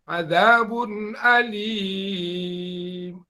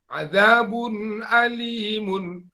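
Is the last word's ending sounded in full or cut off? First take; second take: cut off; full. First: The last word is cut off before 'mun'. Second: The last word ends with a full 'mun' syllable. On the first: The reciter stops on this word. "Kalau itu yang mau kita berwakaf" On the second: The reciter carries on without stopping. "misalnya kita baca uh, ismam"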